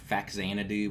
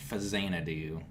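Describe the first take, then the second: First: The middle consonant is said as 'ks'. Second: The middle consonant is said as 'z'. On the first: The speaker calls it wrong. "I used to always say" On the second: The speaker calls it right. "but I guess it's"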